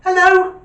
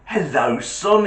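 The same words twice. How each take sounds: First: Put-on high, loud little-kid hello; squeaky-high child's telephone greeting. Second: Said in the usual way. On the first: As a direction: answer the phone like a small child. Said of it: "this little voice goes".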